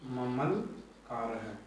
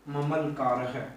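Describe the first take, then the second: First: Very slow repeat. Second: Said in the usual way. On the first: Shown as a demonstration. Teacher repeating ममलकार है for students, drawn out very slowly. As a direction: stretch ममलकार है much slower, each syllable drawn out. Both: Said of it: "मम plus लिकार है".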